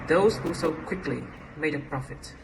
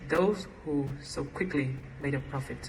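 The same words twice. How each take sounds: First: The phrase break comes after 'quickly'. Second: The phrase break comes after 'sold'. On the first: A profit was made by those who sold quickly. "a profit was made by those who sold quickly" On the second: A profit was quickly made by those who sold. "A profit was quickly made by those who sold"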